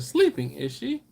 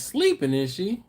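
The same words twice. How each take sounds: First: Said in the usual way. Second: Mock high quote. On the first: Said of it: "but I said". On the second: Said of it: "Laura says".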